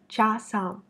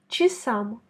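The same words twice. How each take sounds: First: The first vowel sounds like a full 'a'. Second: The first vowel sounds like a reduced 'i'. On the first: The speaker calls it wrong. "ce serait trop difficile de dire «часам»" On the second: The speaker calls it right. "les Russes prononcent «чи»"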